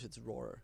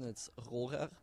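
First: The R is not rolled, English style. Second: The R is rolled, German style.

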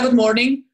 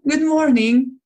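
First: The greeting sounds flat and fed up. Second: The greeting sounds bright and cheerful. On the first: The speaker is worn out and not paying attention. The speaker calls it wrong. "just being unconscious and everything is, you are fed up with everything. You say, yeah, good morning" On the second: The speaker chooses to be kind despite a hard time. The speaker calls it right. "Or you can be conscious going, okay, I'm in a rough time now, but you can choose and say, oh, hi, good morning"

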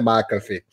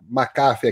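First: The name is said with American English sounds. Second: The name is said with Brazilian Portuguese sounds. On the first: "A pronúncia californiana é McAfee" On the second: "a gente chama McAfee aqui no Brasil"

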